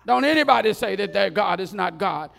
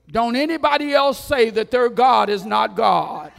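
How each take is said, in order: First: A second royal bellow, slightly less; king's decree, repeated. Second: Roaring royal command, full force; king's decree shout. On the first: Preacher repeats the king's decree to the crowd, loud. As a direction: still booming but a notch down. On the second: Preacher booms the king's decree to the crowd, shouting. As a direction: bellow the decree like a furious king. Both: Acted.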